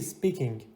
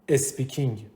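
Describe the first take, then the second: First: The word starts directly with the s sound. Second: An extra vowel is added before the s. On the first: The speaker calls it right. "درستش اینو بگم چی؟" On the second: The speaker calls it wrong. "یه تلفظ اشتباهی که وجود داره میگیم چی؟ ... اسپیکینگ صد درصد غلطه"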